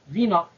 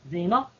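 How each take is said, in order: First: The first vowel sounds like 'ee'. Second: The first vowel sounds like 'ay'. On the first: It sounds like the word for fornication. The speaker calls it wrong. "Beaucoup vont dire Zina" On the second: It is the name as intended. The speaker calls it right. "comme ça se prononce"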